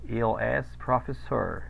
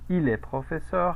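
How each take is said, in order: First: It is said with American English-like sounds. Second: It is said with Spanish-like sounds. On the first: The speaker calls it wrong. "eso es querer decirlo como si yo fuese norteamericano y pues no" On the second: The speaker calls it right. "Es muy diferente decir il est professeur"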